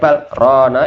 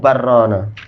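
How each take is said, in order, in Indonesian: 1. Jeda singkat dibuat setelah 'bal'. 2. Kata-kata itu menyambung tanpa jeda. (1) "itu saktah untuk qiraah kita" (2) "nggak ada langsung barrona"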